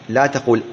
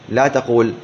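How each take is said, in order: No difference in how they are said.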